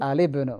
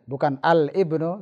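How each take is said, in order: First: The article's L runs straight into the noun. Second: A glottal break separates the article from the noun. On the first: The speaker calls it right. "Ini hamzah wasal di tengah" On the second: The speaker calls it wrong.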